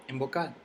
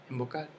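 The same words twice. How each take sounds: Both takes have the same delivery.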